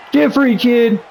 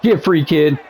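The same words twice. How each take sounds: First: Urgent high plea. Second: Said in the usual way. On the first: Real, not acted. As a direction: urge the player on, pitched up. Repeats it higher.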